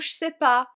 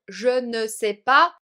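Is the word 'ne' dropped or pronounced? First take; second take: dropped; pronounced. First: The 'ne' is left out entirely. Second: Every word is said, including 'ne'. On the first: This is how natives speak in everyday life. "nous on dit plutôt" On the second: This is the form taught at school. "tu as peut-être appris à dire"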